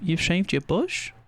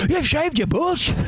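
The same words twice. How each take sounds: First: It is said in a calm, questioning tone. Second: It is said in an angry tone.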